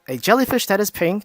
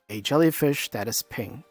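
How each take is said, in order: First: It is said in a normal, higher pitch. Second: It is said in a slightly lowered pitch.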